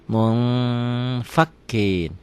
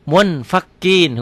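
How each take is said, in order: First: MUNFAKIN as "mung-fakin", long nasal hold; held ikhfa. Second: MUNFAKIN with a clear n, high and loud; written form. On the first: Teacher shows how to read it, held ng. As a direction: stretch the hidden n, slow and level. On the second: Teacher reads it as written, clear n. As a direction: sound the N firmly, slow. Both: Shown as a demonstration. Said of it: "Cara bacanya".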